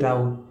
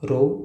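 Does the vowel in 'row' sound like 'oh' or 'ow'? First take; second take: ow; oh. First: The vowel sounds like 'ow'. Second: The vowel sounds like 'oh'. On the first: A noisy quarrel. "इथं काय आहे, राऊ" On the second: A line of things one after another. "Pronunciation रो असंच आहे"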